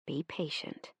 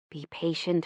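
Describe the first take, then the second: First: Much softer, almost breathed repeat; a faded echo of the advice. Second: Hushed, gentle mother; quietly urging patience; a soft reminder to be patient; soft motherly advice. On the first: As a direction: let the second plea fade right down. Mother's advice remembered. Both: Retold or imitated.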